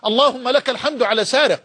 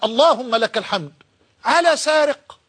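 First: It is said as a plain, flat statement. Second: It is said with surprised, exclamatory tone.

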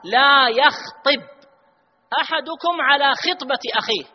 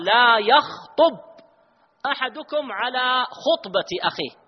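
First: The word khitba is said with an i vowel. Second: The word khutba is said with a u vowel. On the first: It is about proposing marriage. The speaker calls it right. "هذه زواج" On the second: It is about giving a Friday sermon. The speaker calls it wrong. "وهذه خطبة جمعة"

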